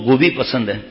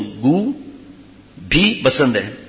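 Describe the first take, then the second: First: The first word is said as one unbroken word. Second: There is a break after the first syllable. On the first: The friend likes cauliflower. The speaker calls it right. "میرے دوست کو گوبھی پسند ہے" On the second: The friend likes excrement too. The speaker calls it wrong. "یعنی پخانا پسند ہے، گو کا مطلب پخانا"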